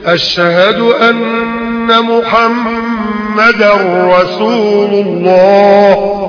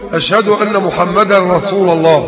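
First: The nasal n is held for two counts. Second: The nasal n is short and not held. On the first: The speaker calls it right. "النون تاخد ايه؟ حركتين" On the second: The speaker calls it wrong. "غلط"

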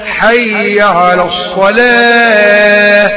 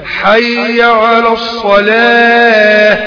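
Both takes have the same delivery.

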